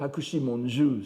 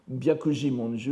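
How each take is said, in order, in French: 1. Le premier mot commence par un son h. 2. Le premier mot commence par un son b. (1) "je préfère le lire Hakushi Monju, c'est-à-dire en lecture Goon" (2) "une lecture Goon tout à fait logique serait"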